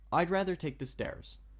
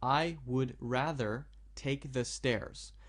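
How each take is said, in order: First: It is read at a natural, connected pace. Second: It is read slowly, word by word. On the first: The speaker calls it right. "To read it naturally would be" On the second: The speaker calls it wrong. "I'm reading that slowly so you can understand easily"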